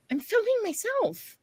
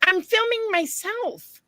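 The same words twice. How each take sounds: First: Repeated protest. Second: High, slow insistent protest; defensive protest. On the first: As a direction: say it again, pleading. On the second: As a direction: insist to the staring man. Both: Retold or imitated. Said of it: "I'm like".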